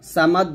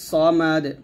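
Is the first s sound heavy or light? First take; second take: light; heavy. First: The first s sound is light and thin. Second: The first s sound is heavy and thick. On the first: The speaker calls it wrong. "বলবেন না" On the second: The speaker calls it right. "الصاد মোটা হবে"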